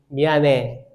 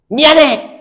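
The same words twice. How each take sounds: First: It is said gently and softly. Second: It is said bluntly and harshly. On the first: The speaker calls it right. "좀 부드럽게 하세요" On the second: The speaker calls it wrong. "하지 말고"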